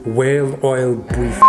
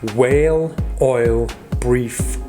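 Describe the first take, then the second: First: The words run together quickly as one phrase. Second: Each word is said slowly on its own. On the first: "Now say them all together fast" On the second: "Say the following words"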